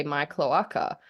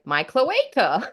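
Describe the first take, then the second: First: "cloaca" said softly, as klo-AH-ka; the bird's soft "My cloaca". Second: "cloaca" said slowly as klo-AY-ka; a drawn-out "cloaca" with AY; bird's cloaca. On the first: Owner teaching a bird a word, said softly and evenly. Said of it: "taught the bird to say". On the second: Imitating the bird mispronouncing the word, drawn out. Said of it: "it was like". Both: Retold or imitated.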